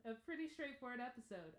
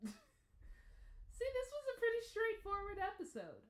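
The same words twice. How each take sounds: First: Said in the usual way. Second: Higher and louder through a laugh; laughing exclaim. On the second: Real, not acted. Reviewer laughing at the episode's simplicity, high and loud. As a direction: burst out giggling at how simple it was.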